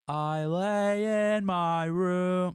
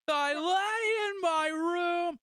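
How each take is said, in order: First: It sounds relaxed and laid back. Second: It sounds raw and whiny with emotion.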